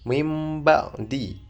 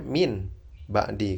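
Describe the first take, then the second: First: The first word ends with an m sound. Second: The first word ends with an n sound. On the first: The nun is read as mim, with nasal humming. "itu nunnya seperti dibaca mim" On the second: This is the word as it is written. "Sebenarnya min ba'di kan"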